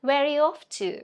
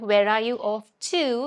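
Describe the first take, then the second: First: The word 'to' is reduced to a weak sound. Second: The word 'to' is said in full. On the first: The speaker calls it right. "you say" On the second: The speaker calls it wrong. "instead of"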